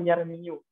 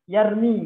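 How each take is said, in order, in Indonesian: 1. Kata ini berakhir dengan tambahan suku kata yu. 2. Kata ini tidak berakhir dengan vokal u.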